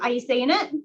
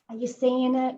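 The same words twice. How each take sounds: First: The question is asked in a harsh tone. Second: The question is asked in a gentle tone. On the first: The question sounds like an accusation. The speaker calls it wrong. "Don't be like" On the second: The question is a friendly, curious inquiry. The speaker calls it right. "Ask them nicely"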